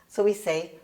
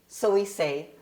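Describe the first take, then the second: No difference in how they are said.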